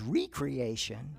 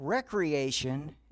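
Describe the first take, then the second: First: The first syllable sounds like 'ree'. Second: The first syllable sounds like 'reck'. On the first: Creating oneself anew. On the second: Leisure activity.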